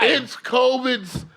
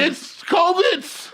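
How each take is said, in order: First: Mock slow insistence. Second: High, very slow, loud drawn-out answer; mock slow insistence. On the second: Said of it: "mock answer". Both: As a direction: stretch it out like it's obvious.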